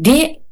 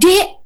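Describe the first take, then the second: First: It is said in a somewhat raised tone. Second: It is shouted loudly.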